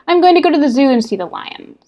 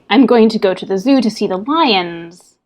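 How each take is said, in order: First: The voice fades away on the final words. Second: The voice stays strong through the final words. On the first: The speaker calls it wrong. "we drop off that end of the sentence" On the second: The speaker calls it right. "driving to the end of a line"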